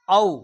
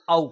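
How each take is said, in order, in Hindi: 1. औ स्वर का उच्चारण हिंदी के ढंग से होता है। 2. औ स्वर का उच्चारण संस्कृत के ढंग से होता है। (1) "हिंदी में जिसे हम औ कहते हैं" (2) "उसे संस्कृत में औ कहते हैं"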